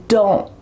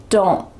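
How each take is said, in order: No difference in how they are said.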